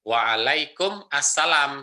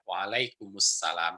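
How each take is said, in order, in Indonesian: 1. Kata-katanya diucapkan terpisah, tidak disambung. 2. Kata-katanya disambung menjadi satu kata yang mengalir.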